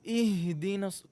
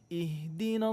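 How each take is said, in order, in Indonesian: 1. Bunyi h didorong dari dada. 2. Bunyi h ringan, dari tenggorokan.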